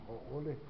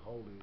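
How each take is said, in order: First: The word is split into ha and ole. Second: The word is run together as one unit. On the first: The speaker calls it right. "That's how they got their name, ha ole" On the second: The speaker calls it wrong. "They say Haole, but it's not really the proper way to say the word"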